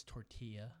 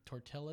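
First: "tortilla" with a Y sound, tor-TEE-ya; Spanish-style "tortilla", LL as Y; correct pronunciation. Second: "tortillas" with the L sounded; Anglicized "tortillas", double L pronounced as L; mispronounced. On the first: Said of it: "You gotta make the Y sound". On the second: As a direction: say "tortillas" as tor-TILL-uhs, hard L. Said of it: "not correctly pronounced". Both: Shown as a demonstration.

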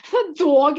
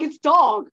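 First: "dog" with a stretched Pennsylvania aw vowel, louder; mock regional dog. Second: "dog" said the usual way, louder; plain dog. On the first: Making fun of the sister's "dog", loud, regional vowel. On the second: Correcting the sister with a standard "dog", loud. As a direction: set a clipped, standard "dog" against the regional one. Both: Shown as a demonstration. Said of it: "a lot of words like dog".

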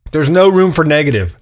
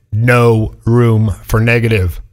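First: Said in the usual way. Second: "No room for negative" drawn out, low and firm; slow emphatic repeat. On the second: Real, not acted. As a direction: spell it out slowly, word by word. Slow repeat to drive it home.

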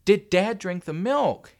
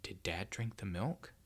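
First: Slow, high, loud question; stubborn demand. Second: Slow, soft near-whisper; hushed, drawn-out suspicion; hushed question. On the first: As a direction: demand it word by word, loudly. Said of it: "his old stubborn self". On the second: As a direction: ask it quietly, frozen on the spot. Boy freezes, asks about the milk. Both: A narrator's reading.

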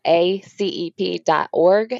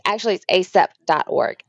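First: "A C E P" spelled slowly, each letter separate. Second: Said in the usual way. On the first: Shown as a demonstration. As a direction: spell out "A C E P" one letter at a time.

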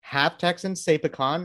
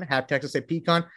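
First: "pecan" said puh-KAHN; "pecan" stressed on the second syllable, puh-KAHN. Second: "pecan" said PEE-kahn; "pecan" stressed on the first syllable, PEE-kahn. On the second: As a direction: say "pecan" with a long ee, then "kahn". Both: Shown as a demonstration.

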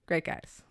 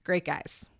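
First: Quieter echo. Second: Soft sincere. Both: Real, not acted.

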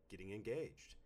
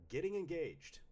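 First: Said in the usual way. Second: High-pitched, bright list read-out; excited announcement. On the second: Acted. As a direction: announce it high, like happy news. Reads repeated list entries in varied voices.

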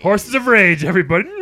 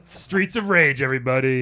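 First: Loud, bright title call; excited announcer. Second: Announcer voice. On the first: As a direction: announce it to the crowd. Louder announce of parody title. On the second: Announcing the title. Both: Acted.

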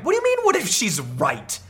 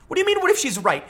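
First: Said in the usual way. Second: Much higher, disbelieving repeat; incredulous. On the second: Real, not acted. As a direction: pitch it up in disbelief.

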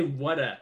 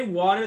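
First: "whata" low, open ending with no R; soft, lower "whata". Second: "water" with a clear final R, rising; crisp R on "water". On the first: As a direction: model "whata" ending on "uh", falling. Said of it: "then say". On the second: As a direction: model "water" with the R sounded. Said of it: "Say water". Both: Shown as a demonstration.

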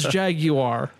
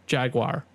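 First: Jaguar in three drawn-out syllables, "JAG-you-ar"; British Jaguar. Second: Jaguar in two syllables, "JAG-wahr"; American Jaguar. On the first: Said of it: "not spelled the same as Jaguar". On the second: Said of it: "like the animal". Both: Shown as a demonstration.

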